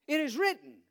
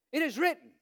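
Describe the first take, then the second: No difference in how they are said.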